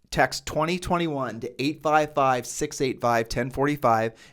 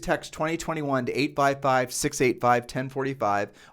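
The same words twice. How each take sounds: First: It is said at a slow pace. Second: It is said at a fast pace.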